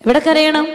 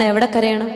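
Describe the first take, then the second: First: കരയണം lifted higher, calling the question out to the hall; raised, ringing question. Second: Said in the usual way. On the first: Shown as a demonstration. Preacher repeats the question to the faithful, higher and stronger. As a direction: throw the question up to the whole congregation.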